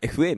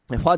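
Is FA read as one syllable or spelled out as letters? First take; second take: letters; one syllable. First: It is spelled out as the letters 'F-A'. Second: It is read as the single syllable 'faa'. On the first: The speaker calls it right. "FA ね" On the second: The speaker calls it wrong. "ファーじゃない"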